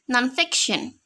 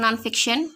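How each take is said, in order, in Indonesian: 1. Tekanan jatuh pada suku kata 'fic'. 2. Kata itu diucapkan datar, tanpa suku kata yang ditekan. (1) "stresnya non-fiction ini ada di fic" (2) "apakah lempeng non-fiction?"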